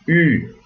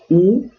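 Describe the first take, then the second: First: The vowel is rounded lips with an ee sound. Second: The vowel is a plain back rounded oo. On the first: The speaker calls it right. "eu digo U" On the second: The speaker calls it wrong. "Ao invés de dizer U"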